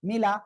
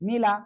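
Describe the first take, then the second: No difference in how they are said.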